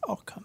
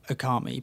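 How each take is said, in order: First: The 'a' sound is barely pronounced. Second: The 'a' sound is clearly pronounced. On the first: This is the proper way of saying it. The speaker calls it right. "actually it's Okami ... the A is hardly pronounced" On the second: This is the speaker's habitual way of saying it. The speaker calls it wrong. "I say Okami"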